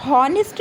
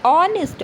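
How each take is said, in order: First: हॉनेस्ट opened with an audible H; H wrongly sounded. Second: ऑनेस्ट begun straight on "o"; silent H. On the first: Teacher showing what is not said, हॉनेस्ट with the H pronounced. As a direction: say हॉनेस्ट voicing the H, "hon-est". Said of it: "हॉनेस्ट नहीं होता है". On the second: Teacher answering what we say, ऑनेस्ट with silent H. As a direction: say ऑनेस्ट leaving the H out. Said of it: "क्या बोलते हैं". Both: Shown as a demonstration.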